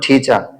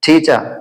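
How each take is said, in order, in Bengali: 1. এটা ব্রিটিশ উচ্চারণে বলা হয়েছে। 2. এটা ব্রিটিশ উচ্চারণে বলা হয়েছে।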